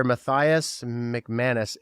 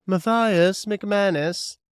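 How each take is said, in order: First: Matthias McManus said slowly; relishing a very Irish name; savoring the name. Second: Matthias McManus, very slow, much higher and louder; belting the name for effect; exaggerated proclamation. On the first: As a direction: linger on each part of Matthias McManus. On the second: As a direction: ham up Matthias McManus grandly. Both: Shown as a demonstration. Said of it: "the most Irish name".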